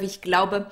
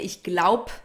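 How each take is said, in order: First: The final e sound is pronounced. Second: The final e sound is dropped. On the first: It is the full standard form. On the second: It is casual, fast speech.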